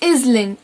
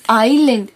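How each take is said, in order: First: An s sound is pronounced in the middle. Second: No s sound is pronounced in the middle. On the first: The speaker calls it wrong. "It is not island" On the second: The speaker calls it right. "because the letter S is silent"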